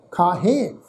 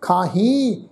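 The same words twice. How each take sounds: First: ਖਾਹੇ with an open, nasalised final e; nasal e ending. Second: ਖਾਹੀ with a long, nasalised final ee; nasal ee ending. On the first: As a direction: close ਖਾਹੇ on a humming "hen". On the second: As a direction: close ਖਾਹੀ on a humming ee sound. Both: Shown as a demonstration. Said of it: "ਇੱਥੇ ਵੀ ਬਿੰਦੀ pronounce ਹੋਏਗੀ".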